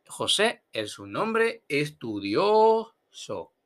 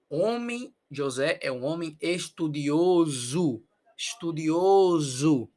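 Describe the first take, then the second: First: "estudioso" slow, with S and final O; Spanish version. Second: "estudioso" slow, ending in -ozu; Portuguese version. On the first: Teacher giving the Spanish "estudioso" before the Portuguese, slowly. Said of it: "los ejercicios". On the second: Teacher modelling Portuguese "estudioso", final O as U. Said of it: "pero nosotros decimos U". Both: Shown as a demonstration.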